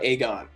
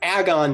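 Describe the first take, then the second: First: The first syllable does not sound like agony. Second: The first syllable sounds like the start of agony. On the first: The speaker calls it wrong. "not Aegon" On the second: The speaker calls it right. "it's Agon"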